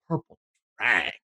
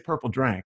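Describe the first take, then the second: First: It is said with an exaggerated, leaned-in delivery. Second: It is said plainly, in a normal voice. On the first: "I'm going to lean into this" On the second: "I'm not just going to say purple drank"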